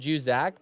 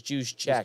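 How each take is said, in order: First: The name sounds like 'Joo-zak'. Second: The name sounds like 'Juice check'. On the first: The speaker calls it wrong. "We always call him Juzak" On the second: The speaker calls it right. "but it's, it's Juice check"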